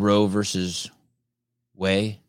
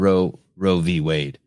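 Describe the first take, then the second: First: The middle word is said in full as 'versus'. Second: The middle word is said as the letter 'v'.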